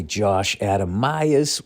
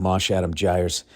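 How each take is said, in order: First: Said in the usual way. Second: "Mosh Adam Gyres" said slowly, landing each swapped first sound; punning nickname. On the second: Shown as a demonstration. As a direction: spell out "Mosh Adam Gyres" with a slow, teasing relish. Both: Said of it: "or as I call him".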